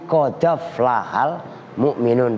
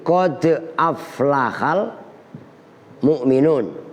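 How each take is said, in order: First: The d links straight onto the following a. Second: A glottal stop separates qad from aflaha. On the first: The vowel is transferred to the preceding consonant. "bukan qad aflaha tapi qadaf lahal mu'minun" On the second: This is the usual reading. "yang normalnya kan begini"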